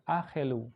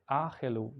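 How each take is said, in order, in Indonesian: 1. Ada vokal pendek yang terdengar di antara konsonan tengah. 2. Ada vokal pendek yang terdengar di antara konsonan tengah.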